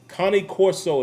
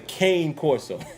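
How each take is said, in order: First: The first word is said with two syllables. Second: The first word is said with one syllable. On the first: The speaker calls it right. "Connie Corso is how you pronounce that dog" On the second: The speaker calls it wrong. "A lot of people say Kane Corso. It's not how you pronounce it"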